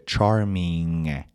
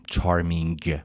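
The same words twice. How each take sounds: First: "چارمینگ" ending on a nasal ng, g not released. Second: "چارمینگ" ending in a firmly released g; over-pronounce the last g of "چارمینگ"; hard final G. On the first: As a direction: let the end of "چارمینگ" ring in the nose, slowly. («چارمینگ» با انتهای تودماغی، بدون گِ محکم) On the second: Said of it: "اون جی آخر رو محکم تلفظ نکنید". («چارمینگ» با گِ آخر محکم) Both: Shown as a demonstration.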